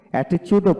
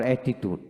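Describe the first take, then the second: First: "অ্যাটিটিউডও" with a ch sound, e-ti-chud; "অ্যাটিটিউডও" higher, as the alternative e-ti-chud; "chud" variant. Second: "অ্যাটিটিউড" with a hard t, e-ti-tud; "tud" variant. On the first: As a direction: say "অ্যাটিটিউডও" with ch for the second t. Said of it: "অ্যাটিটিউডও বলে". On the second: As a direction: say "অ্যাটিটিউড" with t kept, no ch. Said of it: "আবার অ্যাটিটিউড". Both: Shown as a demonstration.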